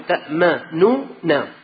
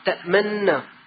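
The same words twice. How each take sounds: First: Two n sounds are separated by a u vowel. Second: The n sounds merge into one long n. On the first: This is the word's underlying original form. "أصل الكلمة تأمننا في نونتين، واحدة مضمومة واحدة مفتوحة" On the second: This is the form recited in the Quran. "حذف النون الأولى المضمومة وأبقى النون الثانية المفتوحة"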